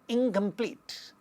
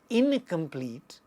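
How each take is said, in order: First: The first syllable ends in an 'ng' sound. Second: The first syllable ends in a plain 'n' sound. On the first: The speaker calls it right. "it becomes incomplete" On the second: The speaker calls it wrong. "we don't say incomplete"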